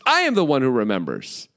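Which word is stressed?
I. The stress is on I.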